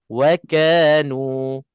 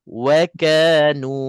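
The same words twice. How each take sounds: Both takes have the same delivery.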